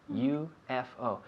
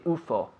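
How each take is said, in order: First: Each letter is said separately. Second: It is said as a single word. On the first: The speaker calls it right. "we pronounce them according to the letter" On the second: The speaker calls it wrong. "We usually don't say U F O"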